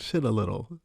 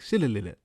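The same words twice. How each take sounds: First: It is said at a slower pace. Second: It is said quickly, run together.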